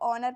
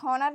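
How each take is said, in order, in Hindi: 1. इस शब्द की शुरुआत स्वर की आवाज़ से होती है। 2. इस शब्द की शुरुआत h की आवाज़ से होती है। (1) "हम इसको ऑनर पढ़ेंगे क्योंकि यहाँ पर भी एच जो है हमारा साइलेंट है" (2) "इसको हॉनर नहीं पढ़ेंगे"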